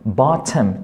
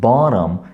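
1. 가운데 자음은 또렷하고 날카로운 t예요. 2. 가운데 자음은 부드러운 l 같은 플랩이에요. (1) "틈 소리 낼 수 있어요" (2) "북미 발음에서는 bottom, bottom, 약간 좀 리을 발음 소리가 날 수 있죠"

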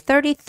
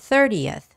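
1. 끝부분을 분명한 'yuth' 소리 없이 발음해요. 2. 끝부분을 분명한 'yuth' 소리로 발음해요. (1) "thirtieth 아니에요" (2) "여th라고 발음"

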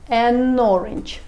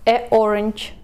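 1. Звук n плавно связывает с orange. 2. Два гласных встречаются без связующего согласного. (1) "Мы можем теперь сделать связку, такой линк" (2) "Говорить будет неудобно"

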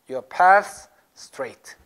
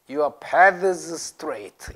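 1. th는 생략되고 s를 길게 끌어요. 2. s 앞의 th 소리는 분명하게 발음돼요. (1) "보통 요새는 paths. Pass, 스를 조금 길게 끌어" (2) "정확하게 하는 사람 paths. ... 이렇게 하는 사람도 있어요. 좀 오래된 사람"

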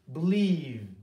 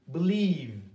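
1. Vurgu ikinci heceye düşer. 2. Vurgu ikinci heceye düşer.

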